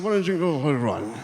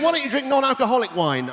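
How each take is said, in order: First: Slurred, rushed and tipsy; mumbling it like a drunk who's had too many. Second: Said in the usual way. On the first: Acted. Drunk man slurring his question back.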